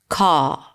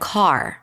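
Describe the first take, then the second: First: The final R sound is dropped. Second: The final R sound is pronounced. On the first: "in British English, the R drops and you'll hear something like car" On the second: "instead of car"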